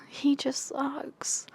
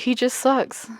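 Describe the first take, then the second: First: "He just sucks" breathed out as a slow whisper. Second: Said in the usual way. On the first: Real, not acted. Vlogger grumbling about the male lead, slow whisper. Repeated, second time whispered.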